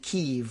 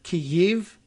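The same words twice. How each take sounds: First: It has one long ee vowel, like keev. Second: It has a hitch between two vowel sounds. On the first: "we end up saying Kiev, like K E E V" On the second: "weird hitch to it ... there's two vowels in there"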